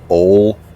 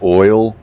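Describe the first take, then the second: First: Said with a local Kentucky vowel, like 'ol'. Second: Said with a neutral, standard American vowel. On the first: How everyone else around the speaker said it. "everybody else said" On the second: The speaker's own childhood way of saying it. "I would try to pronounce the word oil, like oil"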